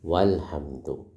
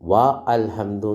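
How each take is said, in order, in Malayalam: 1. 'al' യിലെ 'a' ഒഴിവാക്കി ചേർത്ത് ഉച്ചരിക്കുന്നു. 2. 'al' യിലെ 'a' വേറെയായി ഉച്ചരിക്കുന്നു. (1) "അപ്പോൾ അലിഫ് ഉച്ചരിക്കൂല" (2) "വ അൽഹംദു എന്ന് പറയോ? ഇല്ല"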